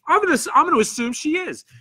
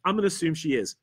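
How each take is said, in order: First: Bright, much higher, quick playful aside; amused high voice. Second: Said in the usual way. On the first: Acted. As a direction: toss it off high and amused, fast. Reading a chat comment aloud.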